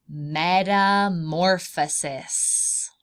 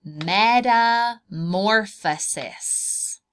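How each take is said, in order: First: Metamorphosis said very slowly, syllable by syllable; careful pronunciation. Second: Metamorphosis even slower, louder, every syllable drawn out; modelled for repeating. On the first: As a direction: spell metamorphosis out slowly for a child. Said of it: "This process is called, is a long word". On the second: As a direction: model Metamorphosis for the child to copy. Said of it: "Can you say that word?". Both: Shown as a demonstration.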